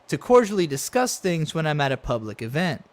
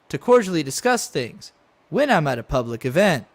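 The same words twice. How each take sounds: First: It runs on smoothly as one phrase. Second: It breaks between 'things' and 'when'. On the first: The discussing happens at public events. The speaker calls it right. "the way he should have read that is" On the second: The event clause reads as a separate sentence. The speaker calls it wrong.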